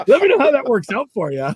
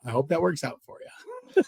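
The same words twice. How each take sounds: First: High, loud mocking send-off; taunting the rival angler, loud and sarcastic; loud sarcasm. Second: Quiet, dry, knowing sarcasm. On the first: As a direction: rub it in with a grin. Mock send-off to Kevin. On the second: Retold or imitated. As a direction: wish him luck without meaning it. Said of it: "I'm like".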